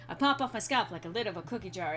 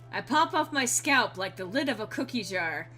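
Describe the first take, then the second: First: The line is read quickly. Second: The line is read at a normal pace.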